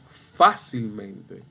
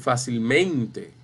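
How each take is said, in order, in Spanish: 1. La tónica cae en la primera sílaba. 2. La tónica cae en una sílaba posterior. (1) "Es fácilmente" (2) "No es fácilmente ni fácilmente"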